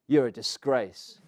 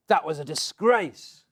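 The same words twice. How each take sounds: First: Slow, measured retort at everyday volume; retold echo of an insult, stretched out slowly; blurted insult. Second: Louder, higher, drawn-out rebuke; indignant outburst. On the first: Batter looking back at the Aussie captain, slow blurted insult. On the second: Retold or imitated. Spectator staring at batter before he leaves, indignant rebuke. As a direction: imitate an outraged spectator, stretching the words. Outraged spectator confronts him, acted.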